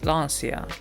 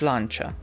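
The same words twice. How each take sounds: First: The name is pronounced with English sounds. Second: The name is pronounced with Italian sounds. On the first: This is how English speakers usually say it. The speaker calls it wrong. "if you're speaking English, they still say Lancia, and it's not correct" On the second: This is how it is said in its country of origin. The speaker calls it right. "if you're in Italian or you're in Italy, it's Lancia"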